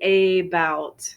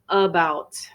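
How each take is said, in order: First: The first vowel is a full, long vowel. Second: The first vowel is a reduced uh sound. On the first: The speaker calls it wrong. "You notice I don't say about. Some countries might pronounce that long vowel sound" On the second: The speaker calls it right. "in the U S we're we're using uh about"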